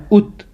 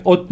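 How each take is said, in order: First: ات said as "ut", with a short u; short, tight "u" in ات, stopping on the t; correct pesh vowel. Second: ات said as "ot", with an o vowel; wrong "o" vowel. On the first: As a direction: say ات as Arabic "ut", not "ot". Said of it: "پیش ہے نا". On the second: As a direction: show the mistake, ات rounded to "ot". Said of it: "Arabic میں ات نہیں کرنا". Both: Shown as a demonstration.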